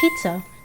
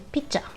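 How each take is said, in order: First: The middle consonant is a z sound. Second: The middle consonant is a j sound. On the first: "Z turns to J when you speak Korean" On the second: "Z turns to J when you speak Korean"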